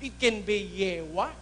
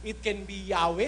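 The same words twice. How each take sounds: First: "Yewa" said as YE-wa, low and soft; pronunciation variant Yewa. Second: "Yahweh" said as YA-weh, low and soft; pronunciation variant Yahweh. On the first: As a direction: offer "Yewa" with e first and a last. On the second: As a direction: offer "Yahweh" with an a in the first syllable. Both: Shown as a demonstration. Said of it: "Nobody now knows the exact pronunciation".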